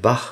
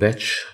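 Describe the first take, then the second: First: The name ends with a throaty 'ch' sound. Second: The name ends with a 'tch' sound. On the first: "dort spricht man tatsächlich den Namen Bach aus" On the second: "hat sich für die Batch-Aussprache mal entschieden"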